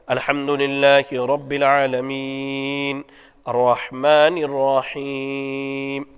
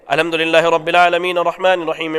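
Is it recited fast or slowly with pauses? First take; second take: slowly; fast. First: It is recited slowly, pausing between phrases. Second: It is recited very fast without pausing.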